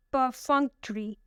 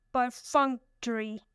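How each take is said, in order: First: Said in the usual way. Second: "Perfunctory" slowly broken up: per-FUNC-tory; stress on second syllable. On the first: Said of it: "The third word is perfunctory". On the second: Shown as a demonstration. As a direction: sound out "Perfunctory" in slow parts, leaning on FUNC. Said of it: "the stress is on the second one".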